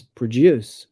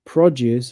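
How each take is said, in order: First: PRODUCE stressed on DUCE, as a verb; weak PRO, strong DUCE in PRODUCE; second-syllable stress. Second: PRODUCE stressed on PRO, as a noun; first-syllable stress. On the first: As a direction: say PRODUCE slowly as pruh-DUCE. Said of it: "stress the second syllable". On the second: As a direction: say PRODUCE slowly as PRAH-duce. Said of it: "stress is on the first syllable". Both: Shown as a demonstration.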